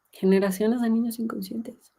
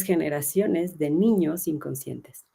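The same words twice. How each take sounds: First: Repeated higher, "niños" lifted for weight; emphatic echo. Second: Said in the usual way. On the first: Shown as a demonstration. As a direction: echo the phrase higher to drive it home. (repetición enfática y más aguda)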